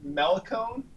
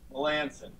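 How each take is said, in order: First: The C is said as a hard K sound. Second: The C is said as a soft S sound. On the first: The speaker calls it wrong. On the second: The speaker calls it right.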